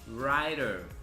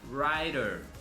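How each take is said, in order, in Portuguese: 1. Ela é dita com sotaque americano. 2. Ela é dita com sotaque americano.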